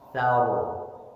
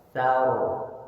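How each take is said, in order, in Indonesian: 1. R di akhir itu tebal dan berat. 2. R di akhir itu tebal dan berat.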